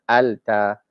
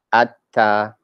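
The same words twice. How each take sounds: First: Alta with a clear l before the t; wrong al-ta. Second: Atta with the l dropped into a doubled t; assimilated atta. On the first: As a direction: say Alta, sounding the l. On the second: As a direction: say atta, lam melted into a double t. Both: Shown as a demonstration. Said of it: "it is easier to say atta rather than alta".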